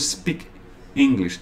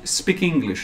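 First: The two words are said separately, without linking. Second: The two words are linked smoothly together. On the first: The speaker calls it wrong. "não" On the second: The speaker calls it right. "Nota a fusão"

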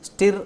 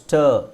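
First: The vowel sounds like the i in sit. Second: The vowel sounds like the u in fur. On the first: The speaker calls it wrong. "ಸ್ಟಿರ್ ಅಲ್ಲ" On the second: The speaker calls it right. "ಅದು ಸ್ಟರ್, ಸ್ಟರ್ ಅಂತ ಹೇಳ್ಬೇಕು"

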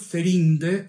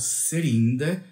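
First: The name begins with a th sound. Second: The name begins with an s sound.

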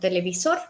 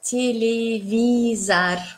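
First: The last syllable has a full O sound. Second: The last syllable has a reduced A sound. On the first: The speaker calls it wrong. "no decimos televisor como televisor" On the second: The speaker calls it right. "pronunciamos televisar, un poco A"

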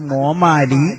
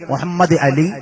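First: The name is squeezed into one short word. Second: The name is said fully, every syllable kept. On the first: This is how local Malayalam speakers say it. "പല ശൈലിയിലല്ലേ വിളിക്കല്" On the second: This is how Arabic speakers say it. "മുഹമ്മദ് അലി എന്ന് വിളിക്കല് അറബികൾക്ക് മാത്രമേ സാധിക്കൂ"

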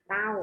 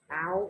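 First: The syllable is said with a falling tone. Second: The syllable is said with a high tone. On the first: "ไม้เทเต้า" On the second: "ไม้ตรีเต้า"

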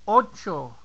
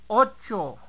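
The two takes are said the same way.

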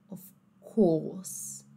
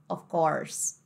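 First: British accent, with the R sound dropped. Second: American accent, with the R sound pronounced. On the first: "Como será que vai ficar isso aí no inglês britânico?" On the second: "no inglês americano, ó como é que ficaria"

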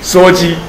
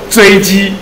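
First: The first syllable is pronounced suo. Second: The first syllable is pronounced zhui. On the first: This is the common everyday reading. The speaker calls it wrong. "我都念羧" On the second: This is the officially prescribed reading. The speaker calls it right. "他应该念作锥"

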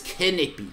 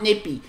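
First: The word begins with a sounded K. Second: The word begins with a plain N sound. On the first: The speaker calls it right. "There's a K on it" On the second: The speaker calls it wrong. "It's not Nippy"

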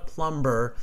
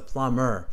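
First: The b sound is pronounced. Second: The b sound is silent. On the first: The speaker calls it wrong. "she always pronounces the B's, ... it's not a plumber" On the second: The speaker calls it right. "it's a silent B ... it's a plumber"

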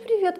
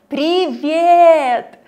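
First: It is mumbled with the lips barely moving. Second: It is articulated clearly with wide mouth movements. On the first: The speaker calls it wrong. "Видите, мои губы почти не шевелятся" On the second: The speaker calls it right. "Но когда вы говорите вот так"

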